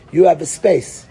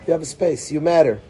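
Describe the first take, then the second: First: "You have a space." said firmly, stress on You; emphatic assurance. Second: "You have a space." repeated softly, You still leading; soft reassurance. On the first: Teacher telling the child, firm and emphatic. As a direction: press it home on You. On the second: Teacher repeating to the child, soft and reassuring. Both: Shown as a demonstration.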